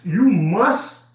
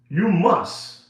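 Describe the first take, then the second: First: Must pushed up and a little louder, rising; you must with a firm rising push on must; stress on must. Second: Said in the usual way. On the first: Shown as a demonstration. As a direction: lean hard into the word must. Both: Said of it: "and I emphasize".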